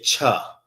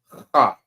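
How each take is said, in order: First: It starts with an English 'ch' sound. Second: It starts with a raspy sound from the throat. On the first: The speaker calls it wrong. "This is not cha. That's the English way of saying it" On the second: The speaker calls it right. "the proper way to say this is ha. Sound like you hawking up some spit"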